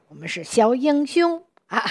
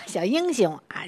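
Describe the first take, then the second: First: Lifted, proud little-hero voice; 自豪自信地说; proud and confident. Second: Said in the usual way. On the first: Shown as a demonstration. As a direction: sing it out like a proud young hero. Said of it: "自信的啊，非常光荣的这样的感觉". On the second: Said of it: "它的音乐的气质是".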